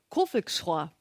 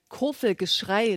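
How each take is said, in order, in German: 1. Das wird im bayerischen Dialekt gesagt. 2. Das wird auf Hochdeutsch gesagt.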